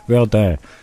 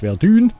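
First: The name is pronounced the French way. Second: The name is pronounced in a non-French way. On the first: The speaker calls it right. "sondern Verdun" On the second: The speaker calls it wrong. "nicht Verdun"

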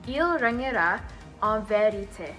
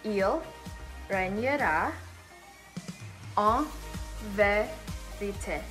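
First: It is said at a normal, flowing speed. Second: It is said slowly, word by word.

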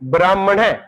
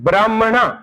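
First: The word ends with an 'ai' vowel. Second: The word ends with an 'aa' vowel. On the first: This is the traditional old reading. "ਪੁਰਾਤਨ ਉਚਾਰਨ ਕੀਤਾ ਦੋ ਲਾਵਾਂ ਨਾਲ" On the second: This is the newer scholars' reading. "ਉਹ ਕੰਨਾਂ ਲਾ ਕੇ ਪੜ੍ਹਦੇ ਨੇ ਬ੍ਰਾਹਮਣਾ, ਇਸ ਤਰ੍ਹਾਂ ਪੜ੍ਹਦੇ ਨੇ"

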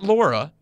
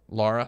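First: The first vowel sounds like the one in 'law'. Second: The first vowel sounds like the one in 'car'. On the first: The speaker calls it wrong. "Not Laura" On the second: The speaker calls it right. "Lara. Not Laura"

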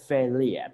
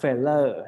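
First: The ending sounds like 'lia'. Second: The ending does not sound like 'lia'. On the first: The speaker calls it right. "เป็นเลียแทนนะครับ" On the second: The speaker calls it wrong. "ไม่อ่านว่า"

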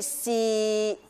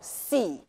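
First: The pitch stays level in the middle. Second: The pitch falls low. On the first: "第三声去到我们的中音区" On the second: "第四声了哈，往下走"

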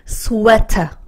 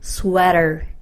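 First: The t is crisp, in a British style. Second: The t is soft, R-like, in an American style. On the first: "이렇게 읽으시면 약간 영국 발음에 가깝고요" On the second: "내가 미국 사람처럼 좀 부드럽게 읽고 싶다"

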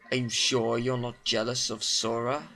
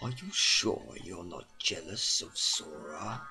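First: It is said in a plain, ordinary tone. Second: It is said in a sinister, cold tone.

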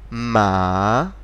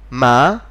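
First: The pitch dips down then rises again. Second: The pitch rises from low to high. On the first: "then immediately after I will say the third tone" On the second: "I'll first say the second tone"

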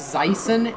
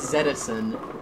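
First: The name begins with the sound 'zy'. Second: The name begins with the sound 'zed'. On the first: This is the American way of reading the name. "in America your name is Zyson" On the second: This is the British way of reading the name. "in Britain your name is Zedison"

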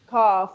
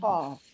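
First: The letter is said thin, with little mouth space. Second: The letter is said full, with the mouth filled. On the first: The speaker calls it wrong. "I cannot say cough" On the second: The speaker calls it right. "fill your mouth"

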